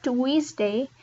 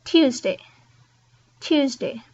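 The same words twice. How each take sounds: First: Tuesday said "too-iz-day"; Tuesday with an extra vowel; wrong Tuesday. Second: Tuesday said "tyooz-day"; Tuesday with a Y glide after T. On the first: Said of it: "It's not". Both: Shown as a demonstration.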